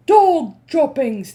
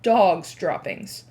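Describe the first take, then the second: First: Slow, loud, high chant; shouting. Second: Said in the usual way. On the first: Acted. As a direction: shout it in disgust. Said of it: "they shouted". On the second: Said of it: "taken up the dreaded cry of".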